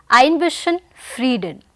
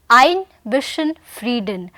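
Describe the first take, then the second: No difference in how they are said.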